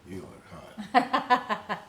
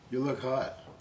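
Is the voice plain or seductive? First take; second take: seductive; plain. First: It is said in a low, seductive voice. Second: It is said in an ordinary plain voice.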